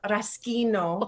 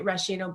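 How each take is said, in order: First: The middle consonant is a hard 'sk' sound. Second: The middle consonant is a soft 'sh' sound. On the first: This is how it is said in Italian. The speaker calls it right. "in Italian it's called raschino. So the H makes a hard sound" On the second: This is how English speakers say it. The speaker calls it wrong. "English speaking people would say rashino"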